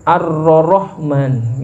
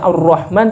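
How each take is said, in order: First: The ra sound is said twice. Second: The ra sound is said only once. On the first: "kalau nyebut huruf ra dia double" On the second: "bukan dibaca ar-rahman"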